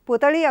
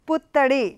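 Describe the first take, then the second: First: The middle t sound is short, single. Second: The middle t sound is held long, doubled. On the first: The speaker calls it wrong. "ఒత్తు లేకపోతే ఏమవుతుంది పుతడి అవుతుంది" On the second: The speaker calls it right. "పుత్తడిలో తాకు ఒత్తు"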